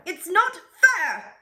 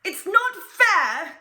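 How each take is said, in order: First: High, loud, slow tantrum cry, falling at the end; bratty wail again. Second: High, loud, slow tantrum cry; bratty wail. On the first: The duke repeats his complaint, high, slow tantrum wail. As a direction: wail like a spoiled duke stamping his bow. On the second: The duke cries out when every arrow fails, high, slow tantrum wail. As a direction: wail it like a spoiled duke stamping. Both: Acted. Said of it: "he sounds terrible".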